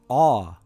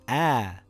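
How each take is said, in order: First: The vowel is heavy, with a full mouth. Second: The vowel is light, with a thin sound. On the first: "if we say the letter A in a heavy sound" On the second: "if we say it in a light sound"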